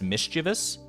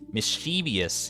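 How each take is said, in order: First: It is said with an even, neutral mouth shape. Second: It is said with a grin partway through. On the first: The word sounds ordinary. "you never need to like contort your face in any particular way" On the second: The word sounds more evil, like what it describes. "you can't say that without uh without giving yourself a, a nice little grin"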